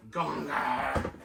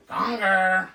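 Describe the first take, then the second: First: Said in the usual way. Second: Much louder and higher, a gleeful shout of the name Gonger; loud playful call. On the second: Pretend. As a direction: belt out Gonger like a cheering fan. Calls the Muppet's name in a voice.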